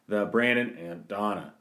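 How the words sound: The pitch goes up on Donna. The speaker calls it right. "I meant to go up on the Donna"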